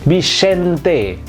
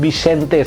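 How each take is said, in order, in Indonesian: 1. Vokal di akhir itu bunyinya 'e' yang jelas. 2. Vokal di akhir itu bunyinya samar dan tidak jelas. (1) "seolah-olah itu E aksen aigu" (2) "bukan E samar-samar, bukan Bixente"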